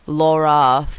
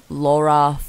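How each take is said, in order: Both takes have the same delivery.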